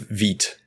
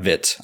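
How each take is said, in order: First: The word has a French-style 'ee' vowel. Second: The word has an English-style 'eye' vowel. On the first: The speaker calls it right. "It's Vite, not Vite. ... it's a French word" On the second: The speaker calls it wrong. "not Vite. I keep saying Vite"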